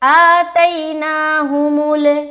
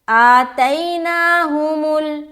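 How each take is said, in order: First: The final l ends with an echoing bounce. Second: The final l ends cleanly without bounce. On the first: The speaker calls it wrong. "ये कलकला वाली आवाज़ है" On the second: The speaker calls it right. "बिल्कुल साफ सुथरी आवाज़"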